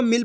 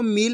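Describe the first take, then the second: First: मिल with a short i; wrongly shortened vowel. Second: मील with a long ī; long drawn-out vowel. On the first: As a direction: say मिल quickly, like "mill". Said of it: "इसको मिल पढ़ देते हैं". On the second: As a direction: stretch मील into "meel". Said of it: "पढ़ेंगे खींच के". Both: Shown as a demonstration.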